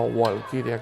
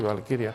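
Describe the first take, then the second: First: The word begins with a W sound. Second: The word begins with a V sound. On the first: The speaker calls it wrong. "como pronunciaría un inglés" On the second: The speaker calls it right. "se pronuncia en alemán con V"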